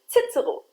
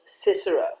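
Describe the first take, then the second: First: The name is pronounced the German way. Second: The name is pronounced the English way.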